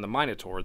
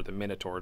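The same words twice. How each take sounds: First: "Minotaur" with first syllable like "mine"; long-i Minotaur. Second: "Minotaur" with first syllable like "min"; short-i Minotaur. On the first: Giving one of two pronunciations, long-i "Minotaur". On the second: Offering the alternative pronunciation, short-i "Minotaur". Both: Shown as a demonstration. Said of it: "depending on how you pronounce that".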